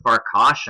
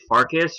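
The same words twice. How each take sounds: First: Farkash ending in a "sh" sound; alternative pronunciation. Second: Farkas ending in a plain "s" sound; first pronunciation guess. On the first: Unsure of the surname, offering Farkash with a final "sh". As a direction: say Farkash with "-kahsh" at the end. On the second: Unsure of the surname, offering Farkas with a final "s". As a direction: say Farkas with "-kis" at the end. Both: Shown as a demonstration. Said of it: "not sure how to pronounce that".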